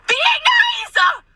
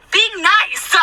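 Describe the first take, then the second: First: Very high, drawn-out mock shriek; exasperated shriek. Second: High, pushed mock-nice outburst; forced niceness. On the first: Server killing her with kindness, exasperated shriek. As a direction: squeal it at the top of your range. Forcing niceness, now shrieked. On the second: Server killing her with kindness, forced niceness. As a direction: insist through strained patience. Forcing niceness at rude customer.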